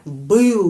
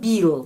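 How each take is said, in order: First: The vowel is a hard, back 'ы' sound. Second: The vowel is a plain front 'i' sound. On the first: The speaker calls it right. "u huruf keras ya, pengucapannya keras" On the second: The speaker calls it wrong. "tetapi bukan bil ya"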